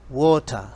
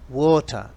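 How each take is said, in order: No difference in how they are said.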